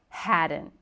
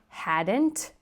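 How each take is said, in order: First: The final T is stopped, not released. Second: The final T is fully released. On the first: The speaker calls it right. "we have that stopped T sound" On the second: The speaker calls it wrong. "So not hadn't"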